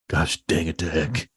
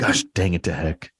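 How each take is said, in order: First: It is said with strong, heated fervor. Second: It is said in a plain, calm way.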